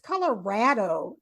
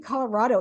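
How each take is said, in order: First: The middle syllable sounds like 'rad'. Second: The middle syllable sounds like 'rod'. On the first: "it's Colorado" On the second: "you say Colorado"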